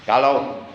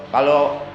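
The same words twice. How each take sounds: No difference in how they are said.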